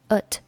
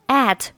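First: The word is said in a weak, reduced form. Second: The word is said in its full, strong form.

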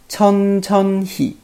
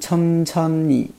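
First: Each syllable is pronounced fully and clearly. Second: It is said fast, with sounds blurred together. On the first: "它正确的发音应该是这样的" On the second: "因为读的比较快嘛，所以听上去有点像천천히"

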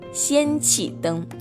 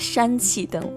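First: The first syllable is said as xian. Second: The first syllable is said as shan. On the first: The speaker calls it right. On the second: The speaker calls it wrong.

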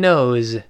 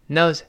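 First: The word ends in a clear buzzing z sound. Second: The word ends in a faint s-like sound. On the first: "理论上读成knows 发z" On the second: "读快了之后就几乎听不清了。 No one knows 跟那个s 就特别像了"

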